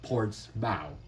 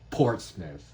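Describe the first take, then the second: First: The ending is said fully, like mouth. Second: The ending is reduced, as in Plymouth. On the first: The speaker calls it wrong. "not Portsmouth" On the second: The speaker calls it right. "it's pronounced Portsmouth ... It's like Plymouth"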